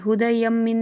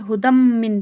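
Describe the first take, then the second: First: An extra sound is kept before the m. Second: The sound merges straight into the m. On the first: The speaker calls it wrong. "नहीं पढ़ेंगे" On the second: The speaker calls it right. "बल्कि हुदम मिन पढ़ेंगे"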